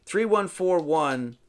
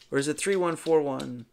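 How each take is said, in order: First: Falling, settled reading of the digits; read as a statement. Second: Questioning tune on the digits; read as a question. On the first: Reading the arrow numbers to viewers, flat statement. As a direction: say the numbers as a plain answer. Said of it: "So read it this way". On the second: Puzzling over the arrow numbers, asking tune. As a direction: wonder aloud about the order. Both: Shown as a demonstration.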